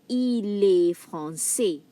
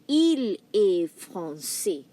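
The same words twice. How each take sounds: First: "Il est français." slow, il stressed, s silent; slow French read. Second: "Il est français." slow, il stressed; slow French read. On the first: Teacher reading the sample sentence slowly. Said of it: "I'm gonna read the sample using il". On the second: Teacher repeating the sample for the class. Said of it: "Or you can say". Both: Shown as a demonstration.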